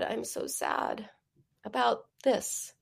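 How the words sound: It is said with real, felt sadness.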